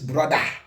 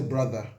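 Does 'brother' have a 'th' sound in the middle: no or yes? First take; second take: no; yes. First: The middle sound has no 'th' sound. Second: The middle sound is a 'th' sound. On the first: The speaker calls it right. "there's no th, eh? In brother" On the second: The speaker calls it wrong. "you don't say brother"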